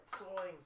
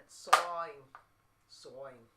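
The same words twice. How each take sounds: First: "Sawing" for soaring, R dropped, New Jersey style; a quick New Jersey take on soaring; New Jersey accent. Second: "Sawing" for soaring, R dropped, Boston style; Boston accent. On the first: Musician explaining the word to chat, New Jersey accent. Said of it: "it's the New Jersey accent". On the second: Musician offering another accent to chat, Boston accent. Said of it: "Or the Boston accent". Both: Shown as a demonstration.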